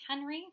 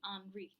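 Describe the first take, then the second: First: The name is said with an American pronunciation. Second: The name is said with a French pronunciation. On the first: "it's the more American pronunciation for it" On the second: "if we wanted to be technical, it would be Henri"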